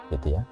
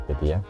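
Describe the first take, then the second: No difference in how they are said.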